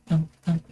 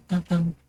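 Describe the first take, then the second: No difference in how they are said.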